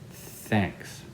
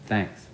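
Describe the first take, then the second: First: The th has a strong flow of air. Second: The th has very little air flow. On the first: The speaker calls it right. "blow some air out, like this" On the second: The speaker calls it wrong. "they don't blow enough air"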